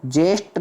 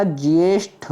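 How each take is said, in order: First: "ज्येष्ठ" as jesht; ya-less "ज्येष्ठ". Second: "ज्येष्ठ" as jyeshth, slow; glided "ज्येष्ठ". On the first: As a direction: drop the y glide in ज्येष्ठ. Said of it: "नहीं होता". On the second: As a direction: sound the y after j in ज्येष्ठ. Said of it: "होता है". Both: Shown as a demonstration.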